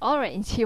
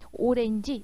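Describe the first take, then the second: First: It is said with an American English pronunciation. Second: It is said with a Korean loanword pronunciation. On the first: "이 발음이 이제 진짜 미국식 발음인 거죠" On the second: "오렌지 이렇게 발음하는 것은 바로 뭐예요? 지금 한국 발음인 것이죠"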